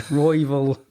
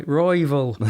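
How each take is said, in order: First: Said in the usual way. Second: "Royval" said like "Raival" in an Irish accent; Irish-accented "Royval", vowel like "rival". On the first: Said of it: "can't help saying Brandon's second name". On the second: Shown as a demonstration. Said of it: "sounds like you're saying rival in the, in Scotland".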